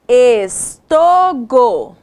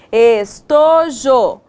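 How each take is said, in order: First: Drawn-out wrong word, testing it aloud; slow syllable-by-syllable try. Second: Drawn-out right word, pleased; slow syllable-by-syllable try. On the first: Teacher to second graders, slowly sounding out a wrong word. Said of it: "Não, não fez sentido a nossa palavra". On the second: Teacher to second graders, slowly sounding out the right word. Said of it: "Isso mesmo". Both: Shown as a demonstration.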